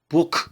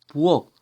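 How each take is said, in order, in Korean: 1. 마지막 자음은 소리 나게 파열돼요. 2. 마지막 자음은 불파된 ㄱ이에요. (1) "이렇게 발음하지 않죠" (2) "자연스럽게"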